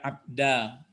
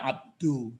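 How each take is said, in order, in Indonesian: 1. Kata ini diakhiri vokal a. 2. Kata ini diakhiri vokal u. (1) "Tidak abda" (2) "dalnya ini tidak abdu"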